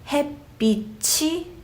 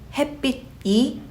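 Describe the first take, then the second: First: A ch sound links into the final vowel. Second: No ch sound links into the final vowel. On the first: "that ch sound rolled over to the subject particle e" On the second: "Instead of saying"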